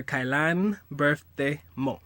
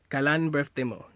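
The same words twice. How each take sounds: First: Kailan birthday mo drawn out slowly; slow model phrase. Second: Said in the usual way. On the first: Shown as a demonstration. Teaching how to ask her birthday, slow and spaced out. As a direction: say Kailan birthday mo slowly, with gaps between words.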